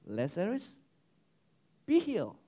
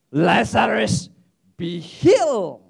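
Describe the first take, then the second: First: Softly spoken healing word, with a pause between; understated command. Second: Loud, drawn-out healing command; commanding shout. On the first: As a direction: say it gently, as a simple suggestion. First, understated version of Jesus' command. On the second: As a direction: call it out slowly with full force. Second take, Jesus commanding a healing. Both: Acted.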